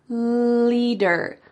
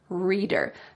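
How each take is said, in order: First: The word begins with a clear L sound. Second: The word begins with an R sound. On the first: The speaker calls it right. "your tongue can go between your teeth" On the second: The speaker calls it wrong. "I heard him say reader instead of leader"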